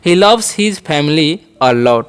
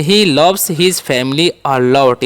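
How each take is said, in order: First: "He loves his family a lot" repeated slowly with stress on loves. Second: Each word of "He loves his family a lot" said very slowly; slow model sentence. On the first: Teacher repeating the model sentence slowly for learners. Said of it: "ऐसे बोल सकते हैं". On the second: Teacher modelling an English sentence slowly for learners. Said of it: "sentence बनाना चाहेंगे तो बोलेंगे". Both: Shown as a demonstration.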